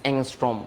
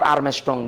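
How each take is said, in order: First: It is said like 'angstrom', with 'ng'. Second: It is said like 'Armstrong', with 'rm'. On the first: The speaker calls it right. "This অ্যাংস্ট্রম" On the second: The speaker calls it wrong. "Not আর্মস্ট্রং"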